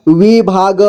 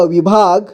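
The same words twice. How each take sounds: First: विभाग as वि-भा-ग; syllable by syllable. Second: Said in the usual way. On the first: Shown as a demonstration. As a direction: sound out विभाग in three parts. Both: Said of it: "एक ही बार में पढ़ेंगे".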